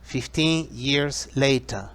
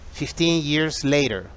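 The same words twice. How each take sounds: First: It is said in a non-American, British-style accent. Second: It is said in an American accent.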